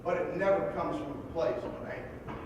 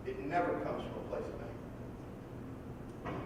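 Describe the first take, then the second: First: Said in the usual way. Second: "It never comes from a place of" dropped much lower and softer, long pause before "anger"; solemn emphatic repeat. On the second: Real, not acted. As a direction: let it sink in, hushed, and hold a pause before "anger".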